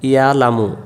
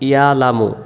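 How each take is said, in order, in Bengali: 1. শব্দ থেকে গলার ব্যঞ্জনবর্ণটি বাদ পড়ে যায়। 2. শব্দ থেকে গলার ব্যঞ্জনবর্ণটি বাদ পড়ে যায়।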